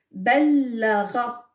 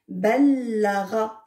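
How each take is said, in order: First: Ballara read slowly, syllable by syllable; slow model reading. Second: Ballara repeated slowly with a doubled l; slow model reading. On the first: Teacher reading the last word to children, slow. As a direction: stretch ballara out for the class. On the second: Teacher repeats the word for the children, slow. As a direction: say Ballara again, slow and clear. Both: Shown as a demonstration. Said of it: "Le dernier mot".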